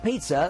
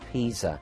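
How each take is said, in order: First: It sounds like the food word pizza. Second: It does not sound like pizza. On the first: The speaker calls it wrong. "Often people say pizza. It's not pizza, that's what we eat" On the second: The speaker calls it right. "it is Pisa"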